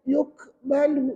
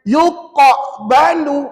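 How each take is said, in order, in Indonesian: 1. Bunyi q hanya bergetar sangat ringan. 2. Bunyi q bergetar sangat berat. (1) "ringan sangat pula bunyinya" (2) "berat sangat"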